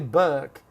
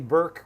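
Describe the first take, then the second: First: The word is said in a British accent. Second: The word is said in an American accent. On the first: "they say Burke" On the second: "I say Burke with my Los Angeles accent"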